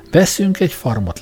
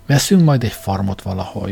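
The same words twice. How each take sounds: First: Veszünk lifted high and pressed; stress on Veszünk. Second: Said in the usual way. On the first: Acted. Sam insists to Kay that they buy together, stressing Veszünk. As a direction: correct her by leaning on Veszünk. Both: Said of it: "Azt mondtam, veszünk".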